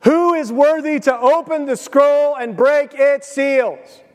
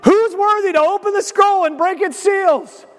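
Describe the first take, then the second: First: Slow, high, ringing proclamation; a herald's slow, ringing call; loud proclaiming. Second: Much higher, excited mock proclamation; over-the-top herald cry; hammed-up angel call. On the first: A narrator's reading. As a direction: call it out like a herald across heaven. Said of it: "proclaiming in a loud voice". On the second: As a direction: shout it like an angel hyping the crowd. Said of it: "He's like".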